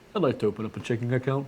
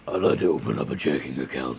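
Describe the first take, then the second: First: It is said in his normal voice. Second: It is said in a gravelly Batman voice.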